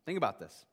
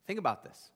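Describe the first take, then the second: No difference in how they are said.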